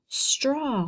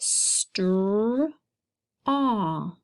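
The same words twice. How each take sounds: First: Said in the usual way. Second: "str-" and "aw" said slowly as separate sounds; sounding out. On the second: Shown as a demonstration. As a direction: break it into "str-", pause, "aw". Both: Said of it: "let's read our first word".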